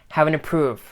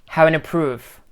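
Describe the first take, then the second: No difference in how they are said.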